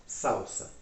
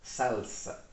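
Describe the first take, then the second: First: Said in the usual way. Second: "Salsa" with a clear L, SAL-sa; Spanish pronunciation. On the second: Shown as a demonstration. Teacher repeats it for learners, Spanish pronunciation of "Salsa" with a full L. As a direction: say "Salsa" with tongue up for the L, not SOW-sa. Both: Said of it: "que a pronúncia também muda".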